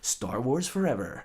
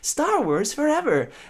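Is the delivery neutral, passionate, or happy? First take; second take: neutral; happy. First: It is said in a neutral, plain way. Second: It is said in a cheerful, happy way.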